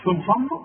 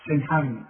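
First: سي محمد with a thin light س. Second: سي محمد with a thick emphatic س like ص; heavy s. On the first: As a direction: say سي with a clear unemphatic s. (نطق السين مرققة في سي محمد) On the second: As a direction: darken the س of سي. (نطق السين مفخمة كالصاد) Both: Shown as a demonstration. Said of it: "مش سي محمد".

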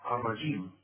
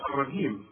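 First: الرجيم with a full Quranic j; correct jim. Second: الرجيم with a hard g sound; wrong hard jim. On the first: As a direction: give الرجيم its proper j sound. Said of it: "لابد إنها تعطش". (الجيم المعطشة الصحيحة) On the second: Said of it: "ما تقولش". (الجيم المصرية الخاطئة) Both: Shown as a demonstration.

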